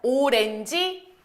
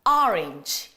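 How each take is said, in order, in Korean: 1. 한국식 음절과 모음으로 발음됩니다. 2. 영어식 모음과 음절로 발음됩니다. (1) "맨날 오렌지, 오렌지 하셨었잖아요" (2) "외국 나가선 또 발음 제대로 해줘야지"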